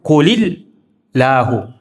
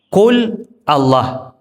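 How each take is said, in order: First: It is linked, with an -hu ending. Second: It ends with a stop on Allah. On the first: The reading continues without pausing. "Tapi kalau dibaca nyambung" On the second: The reading pauses at this point. "Itu kalau dibaca berhenti"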